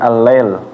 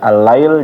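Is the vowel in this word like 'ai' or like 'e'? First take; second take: e; ai. First: The vowel is a plain 'e' sound. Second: The vowel is the diphthong 'ai'. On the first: The speaker calls it wrong. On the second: The speaker calls it right.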